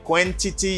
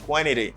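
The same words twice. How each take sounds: First: The T after N is clearly pronounced. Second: The T after N is dropped. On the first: The speaker calls it wrong. "you don't say" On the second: The speaker calls it right. "you just say"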